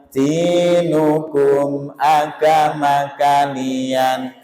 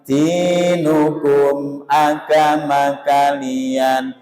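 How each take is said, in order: The two takes are said the same way.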